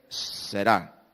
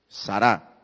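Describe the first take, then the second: First: The first vowel is an 'e' sound. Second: The first vowel is an 'a' sound. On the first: The speaker calls it right. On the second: The speaker calls it wrong.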